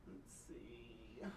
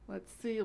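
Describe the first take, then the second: First: Breathy whispered aside. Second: Said in the usual way. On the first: Real, not acted. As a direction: whisper it to yourself. Muttering search to herself.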